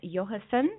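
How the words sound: The name is said with a Swedish accent. "I'm trying to say it with a Swedish accent"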